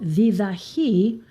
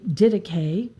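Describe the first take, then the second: First: The word is given a non-English pronunciation. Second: The word is given the English pronunciation. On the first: "it's called Didache" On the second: "In English, they say Didache"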